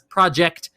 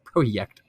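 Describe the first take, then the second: First: The word has an English pronunciation. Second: The word has a Polish pronunciation. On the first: "you have probably more commonly heard it as Project" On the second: "They Poland they pronounce it Projekt apparently"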